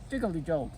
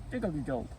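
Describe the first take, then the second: No difference in how they are said.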